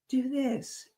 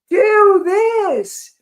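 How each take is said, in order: First: It is said in a soft, small voice. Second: It is said in a loud, booming voice. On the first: "It's that still small voice" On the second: "a loud booming voice like say"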